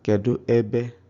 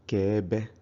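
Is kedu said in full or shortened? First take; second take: full; shortened. First: Kedu is said with both syllables. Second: Kedu is cut to one syllable. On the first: The speech is careful and complete. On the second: The speech is casual, at home.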